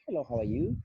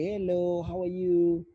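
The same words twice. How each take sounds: First: It is said softly and quietly. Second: It is said slowly and drawn out.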